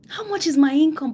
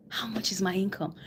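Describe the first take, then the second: First: A hint of alarm, said up high and loud; louder pleading question. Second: Whispered. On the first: Coach voicing a viewer worried about their income, louder and higher. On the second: Retold or imitated. Coach voicing a viewer quietly asking about their income, whispered. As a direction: drop to a whisper for the question.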